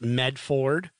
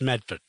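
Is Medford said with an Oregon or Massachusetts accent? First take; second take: Oregon; Massachusetts. First: It is said in a guessed Oregon way. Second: It is said in a Massachusetts accent.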